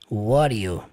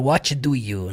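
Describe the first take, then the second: First: The three words are blended into one reduced form. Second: Each of the three words is said fully and separately. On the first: "no sotaque americano, pronunciar what do you" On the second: "Você não precisa falar what do you"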